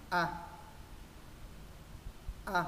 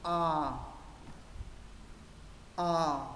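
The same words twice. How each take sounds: First: Brief A with jaw dropped; short, relaxed A vowel. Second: Long A, mouth open top to bottom; drawn-out, fully open A vowel; wide long A. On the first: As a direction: drop the jaw for a quick A. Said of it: "Chữ A thứ nhất hạ cầm". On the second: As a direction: open tall and hold the A. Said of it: "Chữ A thứ hai mở rộng trên dưới". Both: Shown as a demonstration.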